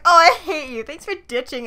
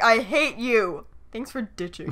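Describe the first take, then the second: First: Light playful I hate you; joking tone. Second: Slow, low, flat-out serious I hate you; mean it, slow and cold; dead serious. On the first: Showing how he read the text jokingly. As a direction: toss it off as a joke. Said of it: "I like how he read that as like". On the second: Showing the serious reading he didn't take. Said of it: "instead of like". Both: Shown as a demonstration.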